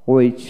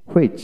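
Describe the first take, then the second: First: হুইচ said as "witch", no h; হুইচ with a plain w onset; British w pronunciation. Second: হুইচ with an audible h before the w; হুইচ starting on breathed hw; American h pronunciation. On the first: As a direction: drop the h in হুইচ. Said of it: "British উচ্চারণে". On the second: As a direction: sound the h in হুইচ. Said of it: "আমেরিকানে হ". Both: Shown as a demonstration.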